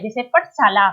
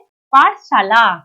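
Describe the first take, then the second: First: पाठशाला said quickly as the wrong form पठशाला; pupil's wrong form पठशाला; wrong spelling said. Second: पाठशाला slow and loud with a long आ in पा; teacher correcting a misspelling, slow and emphatic; correct pronunciation. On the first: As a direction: say पाठशाला with a short first vowel, पठशाला. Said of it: "तो पाठशाला नहीं होता है बच्चों". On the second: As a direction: stretch the आ in पाठशाला: पा-ठ-शाला. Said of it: "क्या होता है?". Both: Shown as a demonstration.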